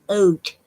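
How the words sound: The vowel glides through two distinct vowel sounds. "they're pronouncing both vowels, the O and the U"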